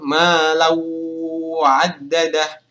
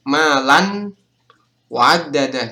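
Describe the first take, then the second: First: The nasal sound blends into the following word. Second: The nasal sound is clearly heard on its own. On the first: The speaker calls it right. "kita harus melebur" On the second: The speaker calls it wrong. "Kalau cara yang salah itu nanti huruf mimnya akan terdengar"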